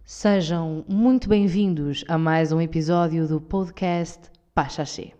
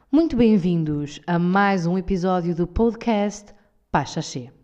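First: Very slow, solemn formal welcome; more institutional voice. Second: Slow, formal podcast welcome; institutional voice. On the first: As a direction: stretch every word like a state announcer. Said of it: "já estão a entrar no mood". (voz mais institucional, muito lenta e solene) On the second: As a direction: announce it like an official broadcast. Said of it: "Muito institucional". (voz institucional, lenta e formal) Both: Pretend.

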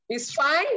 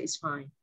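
First: Cheery it's fine. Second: A very soft, low, clipped "It's fine."; curt it's fine. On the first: Shown as a demonstration. Mimicking how women say it to their husbands, breezy rising fine. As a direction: fake brightness covering the anger. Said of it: "how you guys came up with this". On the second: Retold or imitated. A wife telling her husband she's fine, cold and curt. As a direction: sound cold and hurt while pretending to be okay. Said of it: "There was even accent with my".

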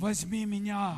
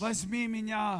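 First: Tempting chocolate. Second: The chocolate's plea, stretched slowly; slower, drawn-out tempting chocolate. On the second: Preacher voicing a Snickers bar calling out to the listener, slow and coaxing. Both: Acted. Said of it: "Snickers schreien sie an".

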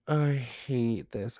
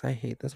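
First: Slow, drawn-out I hate this; drawn out like a long complaint; dragged-out groan. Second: Said in the usual way. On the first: Real, not acted. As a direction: stretch every word out in disgust. Spider scare, groaning.

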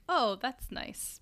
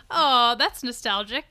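First: Slow, soft polite nod. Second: Pleased oh. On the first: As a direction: say it slowly and politely. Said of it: "I'm like". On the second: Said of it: "my face was like". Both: Retold or imitated.

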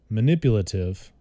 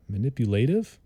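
First: Said in the usual way. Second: "Manipulative" said ma-NIP-yu-lay-tiv, questioning. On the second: Shown as a demonstration. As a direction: try "Manipulative" with a long "lay", unsure. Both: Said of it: "I think that's how you say it".

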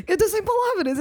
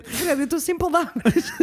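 First: Higher, stunned, laughing at it; mock speechless through a laugh; retold shock. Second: Said in the usual way. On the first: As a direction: speechless disbelief. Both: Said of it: "eu estava em choque".

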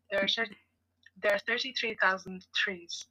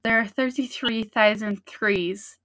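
First: "thirty-three thousand trees" with TH sounds slipping into T's; stumbling over "thirty-three thousand"; tripping on T's. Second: "thirty-three thousand trees" with "trees" said as "threes"; slow careful try that slips on "trees"; stumbling tongue twister. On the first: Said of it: "It still sounds like I'm saying trees". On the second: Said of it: "it's the second time that messes you up". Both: Shown as a demonstration.

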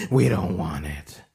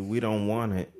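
First: Louder, put-on voice; firmer refusal. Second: Said in the usual way. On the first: Refusing the spoiled milk, firm put-on voice. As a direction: shut it down for good.

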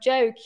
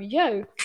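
First: Said in the usual way. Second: Swedish-accented joke, said "yoke". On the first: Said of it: "sometimes I mispronounce words". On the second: Shown as a demonstration. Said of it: "the word joke can become yoke".

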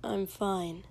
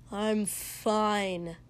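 First: Rote. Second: Said in the usual way. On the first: A narrator's reading. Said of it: "like it was rote this time". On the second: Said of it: "Shoto protested".

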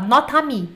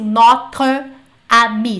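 First: Notre amie run together, the E of notre dropped into amie; linked notre amie. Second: Notre amie said slowly and loudly, each word apart with the E kept; overly separated notre amie. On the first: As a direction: glide straight from notre into amie, no break. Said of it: "Junta tudo". (notre amie tudo junto, o E morre e o A toma conta) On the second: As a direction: pronounce notre and amie as two separate careful words. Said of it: "Então você não precisa falar assim". (notre amie devagar, palavra por palavra, sem ligar) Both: Shown as a demonstration.

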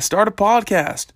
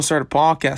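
First: Higher and slower, pressing the point; emphatic repeat. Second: Said in the usual way. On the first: Real, not acted. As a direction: really push "start a podcast", "podcast" landing hard.

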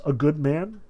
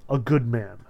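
First: Questioning. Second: Plain falling answer; calm confirmation. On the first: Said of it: "he asks". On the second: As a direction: settle it firmly, sincerely. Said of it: "the prisoner confirmed". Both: A narrator's reading.

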